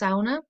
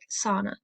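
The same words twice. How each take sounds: First: The word has a Finnish pronunciation. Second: The word has an American pronunciation. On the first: "the Finnish pronunciation" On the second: "In American culture, it sounds a bit more like"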